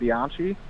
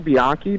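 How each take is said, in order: First: The name is said with anglicized pronunciation. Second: The name is said with Italian pronunciation. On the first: This is the form used while growing up. "I grew up saying it" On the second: This is the technically correct form of the name.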